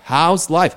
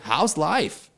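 First: It is said in a calm, plain way. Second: It is said with lively, excited energy.

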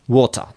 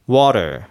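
First: It is said in a British accent. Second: It is said in an American accent. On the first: "イギリス英語だと水はwater、 water。 こんな感じで言うんですね。" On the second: "アメリカとかの発音だとwater のように言います。"

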